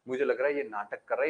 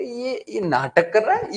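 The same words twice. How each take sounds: First: Quick muttered aside ये नाटक कर रहा है; muttered suspicion. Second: Slow, higher and louder disbelief; exasperated outburst. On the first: Mishra ji mutters his suspicion, fast and low. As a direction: say it fast under the breath, suspicious. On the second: Mishra ji shouts that the insulator is faking, slow and loud. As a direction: drag out ये नाटक कर रहा है in loud exasperation. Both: Acted. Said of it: "बोले".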